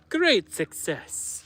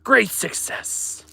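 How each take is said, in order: First: It is said in a Borat impression. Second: It is said in his normal voice.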